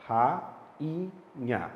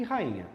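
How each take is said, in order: First: "Ra-in-nha" in three separate beats; "Ra-in-nha" with a gap either side of IN; syllable by syllable. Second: Said in the usual way. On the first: Shown as a demonstration. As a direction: break "Ra-in-nha" apart, pausing after each syllable. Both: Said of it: "Como é que você fala?".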